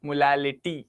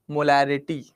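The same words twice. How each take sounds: First: मोलालिटी lisped, l in place of r; lower-pitched मोलालिटी with the r lisped into l; lisping. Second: Said in the usual way. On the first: Shown as a demonstration. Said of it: "तोतला जाओ।". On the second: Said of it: "sir, तोतला जाओ।".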